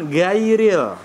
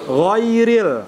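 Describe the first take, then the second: First: The first consonant is thin, not raised. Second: The first consonant is thick, raised toward the palate. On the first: The speaker calls it wrong. "Bukan gairil" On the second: The speaker calls it right. "huruf isti'la atau tebal"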